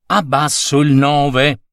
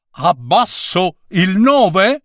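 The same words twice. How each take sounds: First: Said in the usual way. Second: "Abbasso il nove" ripetuto molto più alto, in tono offeso, con la voce che sale sulla fine; il nove ripete offeso. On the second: A narrator's reading. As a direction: citare le parole dello scolaro con stizza, salendo su "nove". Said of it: "perché hai gridato". (il nove ripete la frase dello scolaro, acuto e indignato)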